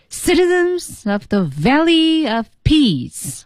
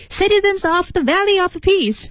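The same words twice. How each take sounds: First: "Citizens of the Valley of Peace" slow and high, heavy on Citizens, Valley, Peace; 有轻有重. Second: "Citizens of the Valley of Peace" high and rushed, every word equally heavy; 错误喊法示范. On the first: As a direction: call it to a big hall: "Citizens of the Valley of Peace", stretched in strong and weak beats. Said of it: "你一定是有轻有重的". (慢而高地喊“Citizens of the Valley of Peace”，有轻有重) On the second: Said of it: "就不能这么喊". (错误示范：又高又快、不分轻重地喊“Citizens of the Valley of Peace”) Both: Shown as a demonstration.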